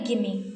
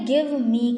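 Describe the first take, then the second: First: The two words blend into one reduced word. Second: Both words are said fully and separately. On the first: "ये contraction है" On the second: "गिव मी का"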